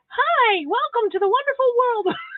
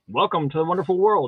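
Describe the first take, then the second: First: It is said in a higher-pitched voice. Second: It is said in a deep radio announcer voice.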